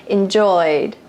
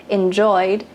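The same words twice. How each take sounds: The two takes are said the same way.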